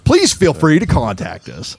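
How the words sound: It is read in a rude, condescending tone. The writer thinks the reader is foolish. "that didn't sound very nice. ... now I read it like this"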